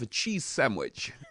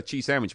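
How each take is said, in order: First: It is said in a posh English accent. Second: It is said in a broad, casual accent. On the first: It sounds refined and good. The speaker calls it right. "If you say anything in a posh English voice, it sounds good" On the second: The refined effect is lost. The speaker calls it wrong. "it's gone immediately"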